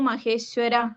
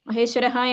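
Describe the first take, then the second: First: The word ends on a short, clipped vowel. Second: The word ends with an audible h sound. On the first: "മഹേശ്വര എന്ന് പറഞ്ഞ് നിർത്താം" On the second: "മഹേശ്വരഹ എന്ന് പറയാം"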